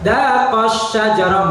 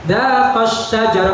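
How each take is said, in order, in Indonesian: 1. Vokal panjang itu dibaca lemah, tanpa tekanan. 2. Vokal panjang itu diberi tekanan yang jelas.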